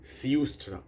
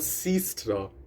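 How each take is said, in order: First: The first syllable is 'siu' with a rounded vowel. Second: The first syllable is a plain 'si'. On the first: The speaker calls it right. "it's siu, siustra" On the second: The speaker calls it wrong. "It's not sistra"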